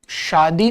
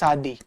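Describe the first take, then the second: First: The word begins with an 'sh' sound. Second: The word begins with an 's' sound. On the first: "वो शादी नहीं बोलेंगे" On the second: "वो श को स बोलते हैं"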